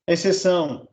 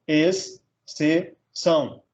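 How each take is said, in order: First: Said in the usual way. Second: "ex", "se", "são" as three separate beats; split into syllables. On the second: Shown as a demonstration. Teacher dividing exceção, "ex, se, são" syllable by syllable. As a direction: pause after each of "ex", "se", "são". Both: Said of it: "separar um em cada sílaba".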